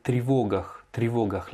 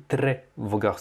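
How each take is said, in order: First: Тревогах as "tri-VO-gakh", stressed o; corrected pronunciation. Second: Тревогах with a clear "tre"; imitated mispronunciation. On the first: Shown as a demonstration. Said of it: "L'accentuation sur le O". (тревогах prononcé « tri », accent sur le o) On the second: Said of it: "Tu as dit". (тревогах prononcé « tré », comme l'élève)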